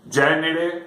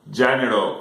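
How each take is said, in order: First: The word ends with an e vowel. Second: The word ends with an o vowel. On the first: This is the Catalan form. "en e en català" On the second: This is the Valencian form. "correcte en o"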